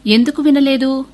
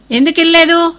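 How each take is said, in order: First: Said in the usual way. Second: Higher, louder demand; father snapping the question at his son; angry father repeating the headmaster's question; sharp angry repeat. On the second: A narrator's reading.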